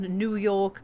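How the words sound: It is said with an English-language accent. "they use the correct pronunciation"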